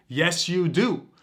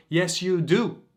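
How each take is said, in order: First: "Yes, you do" slowed down, each word weighted; slow insistent repeat. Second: Said in the usual way. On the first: Shown as a demonstration. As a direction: say it again slowly so it lands.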